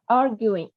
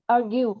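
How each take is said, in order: First: "arguing" stressed on AR, with an -ing ending; stress on first syllable. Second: "argue" with the stress on the second syllable. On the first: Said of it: "nó có đuôi ing là arguing". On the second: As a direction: lean on the GUE in "argue". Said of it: "trọng âm thứ hai". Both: Shown as a demonstration.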